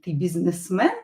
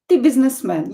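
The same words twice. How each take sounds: First: It is said with question intonation. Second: It is said with statement intonation. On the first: It asks whether someone is a businessman. "Or it can be a question" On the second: It tells someone they are a businessman. "It can be a statement"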